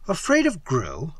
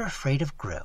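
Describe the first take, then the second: First: "Afraid of Gru" echoed with a rising end; questioning echo. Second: Said in the usual way. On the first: A narrator's reading. Narrator echoes Evelyn's admission, questioning with a rise. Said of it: "I repeated". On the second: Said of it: "Afraid of Gru? I repeated".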